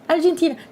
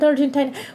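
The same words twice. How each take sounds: First: The 'i' is said like 'ee'. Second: The 'i' is said like 'eye'. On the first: The speaker calls it right. "Argentina, not Argentina" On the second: The speaker calls it wrong. "my brain defaulted ... to the normal I"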